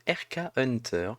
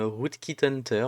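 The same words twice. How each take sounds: First: Said in the usual way. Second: Rootkit Hunter said with a light English accent; self-mocking English accent. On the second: Shown as a demonstration. Spelling out the tool's name for viewers, light mock English accent. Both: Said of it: "avec mon super accent anglais".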